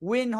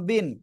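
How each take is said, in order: First: It begins with a rounded-lip W sound. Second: It begins with a V-like sound made with teeth. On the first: The speaker calls it right. "উইন হবে" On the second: The speaker calls it wrong. "কেউ বলে এই যে বা বয়রসি দন্ত বিন, যে এটা বলবে তার ভুল"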